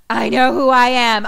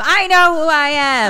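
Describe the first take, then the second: First: Raised, insistent acted protest; mock protest. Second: High, loud acted outburst; escalating mock protest. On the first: Mickey protests to Robbie D who he is, mock protest. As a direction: insist with a louder, higher voice. Retold character's desperate insistence. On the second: Mickey insists harder to Robbie D, escalating mock protest. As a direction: push the protest higher and louder.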